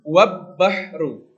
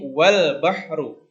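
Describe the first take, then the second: First: The L merges into a doubled B sound. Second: The L is clearly pronounced before the B. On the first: The speaker calls it wrong. "bukan wab bahru" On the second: The speaker calls it right. "tapi wal bahru"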